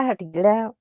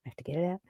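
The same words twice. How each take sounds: First: Said in the usual way. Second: Quiet repeat. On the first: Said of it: "I have to talk about it now". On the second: Real, not acted.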